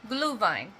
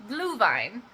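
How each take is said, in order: No difference in how they are said.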